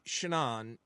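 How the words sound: The name is said like the English name Shannon. "I always say the American version"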